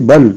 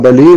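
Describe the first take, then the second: First: The word ends on the l, with no vowel. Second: The l is followed by an i vowel. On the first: The speaker calls it right. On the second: The speaker calls it wrong.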